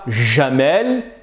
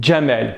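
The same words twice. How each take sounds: First: It starts with a soft zh sound, no d. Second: It starts with a d before the zh sound. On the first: The speaker calls it wrong. "ne dites pas jamel" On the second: The speaker calls it right. "mais dites jamel"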